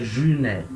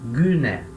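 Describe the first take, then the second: First: The first consonant is soft, not from the throat. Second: The first consonant is a guttural G from the throat. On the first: The speaker calls it wrong. "Não é gyné" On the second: The speaker calls it right. "G gutural"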